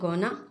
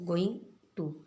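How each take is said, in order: First: The words are blended into one reduced form. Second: Both words are pronounced fully and separately.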